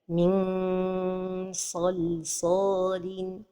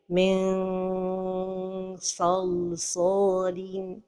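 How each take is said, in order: First: The n is a full nasal with the tongue touching. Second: The n sounds like a long stretched vowel. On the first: "coller la langue au palais" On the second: "trop éloigner la langue du palais... comme si on prononçait un med"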